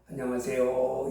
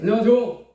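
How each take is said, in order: First: It is said politely and respectfully. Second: It is said casually, without respect.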